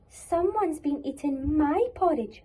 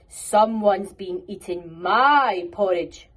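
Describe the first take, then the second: First: It is said in a medium voice. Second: It is said in a very loud voice.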